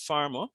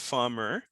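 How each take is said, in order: First: The ending is a schwa with no r. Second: The ending has an audible r sound. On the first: The speaker calls it right. "I said it's farmer" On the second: The speaker calls it wrong. "not farmer"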